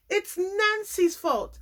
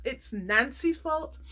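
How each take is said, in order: First: Nancy's drawn out high and slow; slow, high mocking "It's Nancy's fault"; mock blame. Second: "fault" stressed, slow and level; slow deadpan "It's Nancy's fault"; flat mock blame. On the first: Vlogger mocking Bartise's blame game, slow and high. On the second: Vlogger repeating Bartise's excuse, slow and deadpan. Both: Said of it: "whose problem it is today".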